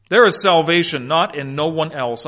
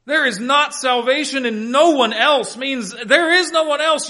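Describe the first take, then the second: First: Deliberate word-by-word reading; measured repeat of a literal translation. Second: High-pitched, forceful stress on "not" and "no one else"; "no one else" lifted high and hit hard; emphatic negative. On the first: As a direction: read it out literally, spacing the words. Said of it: "let me read this literally". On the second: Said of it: "a very emphatic negative". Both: Shown as a demonstration.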